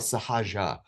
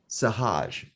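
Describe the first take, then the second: First: The word ends with an added final a vowel. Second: The word ends on a consonant, no final vowel.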